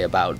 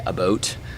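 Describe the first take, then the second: First: The vowel is said plainly, in general American. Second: The vowel is stretched, with a Canadian-like sound. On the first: "how you would say about" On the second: "they say about"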